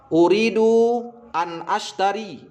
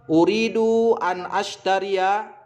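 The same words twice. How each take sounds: First: "ashtari" said without the final ya, slow; short form. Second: "ashtariya" with the final ya added, slow; full form. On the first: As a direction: end "ashtari" cut short. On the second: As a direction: finish on "ashtariya". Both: Shown as a demonstration.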